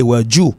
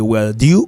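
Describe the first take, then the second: First: "where do you" with "joo"; linked "where do you", as "wheh-joo"; second accent. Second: "where do you" with "dyoo"; linked "where do you", as "wheh-dyoo"; first accent. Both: Shown as a demonstration. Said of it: "ou ka tande deux accents".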